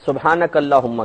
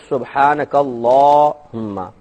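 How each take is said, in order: First: The 'la' vowel is short and clipped. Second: The 'la' vowel is drawn out long. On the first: The speaker calls it wrong. "सुबहानक अल्लाहुम्मा कहते हैं" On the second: The speaker calls it right. "ला को लंबा खींचेंगे"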